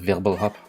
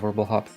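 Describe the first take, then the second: First: The word is said with a German accent. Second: The word is said with an English accent. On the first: The speaker calls it right. "you need to say it with a German accent" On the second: The speaker calls it wrong. "most people say Wirbelhop"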